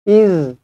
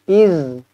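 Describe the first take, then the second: Both takes have the same delivery.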